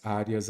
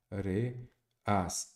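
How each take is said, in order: First: Said in the usual way. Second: "areas" split into á, re, as; syllable by syllable. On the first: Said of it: "olha aqui". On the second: Shown as a demonstration. Teacher showing students the syllable count, syllable by syllable. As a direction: say "areas" in three separate beats with pauses. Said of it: "sem separar em sílabas".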